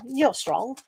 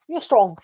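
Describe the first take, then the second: First: Said in the usual way. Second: Louder, pressing the words You're strong; firm encouragement. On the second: Real, not acted. Reader insists to a viewer, emphatic. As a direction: lean hard into You're strong to convince.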